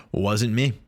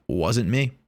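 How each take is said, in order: Both takes have the same delivery.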